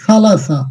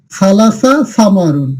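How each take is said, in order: First: Said in the usual way. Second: Slow demo. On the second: Shown as a demonstration. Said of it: "এই তিনের আরবি শব্দ হচ্ছে সালাসা".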